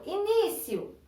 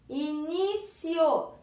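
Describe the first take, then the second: First: Said in the usual way. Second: "Início" very slowly as i-ní-cio; syllable by syllable. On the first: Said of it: "Por exemplo". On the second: Shown as a demonstration. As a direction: stretch "Início" into three long beats. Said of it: "Como eu faço para separar em sílabas?".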